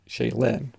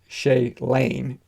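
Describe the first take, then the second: First: The last syllable sounds like 'lin'. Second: The last syllable sounds like 'lane'. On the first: The speaker calls it wrong. "I was pronouncing it" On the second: The speaker calls it right. "the correct pronunciation is"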